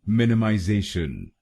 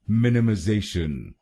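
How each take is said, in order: First: It is said in a British accent. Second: It is said in an American accent.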